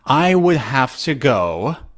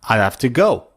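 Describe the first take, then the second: First: Both words of 'I would' are said in full. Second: 'I would' is squeezed into one short syllable. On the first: "instead of I would" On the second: "you can say odd"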